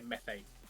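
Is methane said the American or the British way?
American. The word is said with an American pronunciation. "the Americans say methane"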